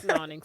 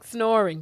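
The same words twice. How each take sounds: First: "Snoring" garbled as "snawning"; mispronounced snoring. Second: Said in the usual way. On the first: Retold or imitated. Echoes co-host's slip for snoring.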